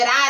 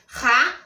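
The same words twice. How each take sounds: First: The r is tapped with the tongue tip. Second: The r is rasped in the throat. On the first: "tremer a linguinha" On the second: "arranhar a garganta"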